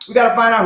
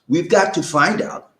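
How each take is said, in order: First: The phrase is said quickly. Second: The phrase is said slowly. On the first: The speaker calls it wrong. "Somebody said I said it too fast" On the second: The speaker calls it right. "I gotta say it slow"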